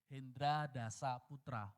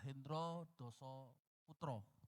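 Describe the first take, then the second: First: The a vowels are pronounced as a. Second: The a vowels are pronounced as o. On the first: This is how the name is actually written. "Sebenarnya sih" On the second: This is the Javanese way of reading the name. "Bahasa Jawa kan A itu selalu dibaca O"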